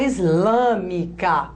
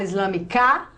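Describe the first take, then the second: First: The stress is on the third-to-last syllable. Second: The stress is on the last syllable. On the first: The speaker calls it right. "A gente fala islâmica. Conta, ó. Toda a proparoxítona é acentuada" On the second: The speaker calls it wrong. "A gente fala islamicar"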